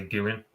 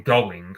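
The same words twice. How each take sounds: First: "going" as a local "gooin". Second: Said in the usual way. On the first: Shown as a demonstration. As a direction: say "going" with an oo sound, dropping the g. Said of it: "I say going". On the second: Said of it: "instead of saying going".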